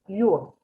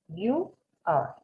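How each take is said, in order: First: The words are contracted into one syllable. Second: Two separate words are said, you and are. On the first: "Lo que yo te estoy pidiendo es your" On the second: "si estuviera you are, sería así"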